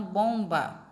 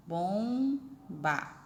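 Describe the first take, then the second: First: Said in the usual way. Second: "Bomba" split into two drawn-out syllables. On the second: Shown as a demonstration. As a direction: sound out "Bomba" slowly, bom... ba. Syllable demonstration of the word.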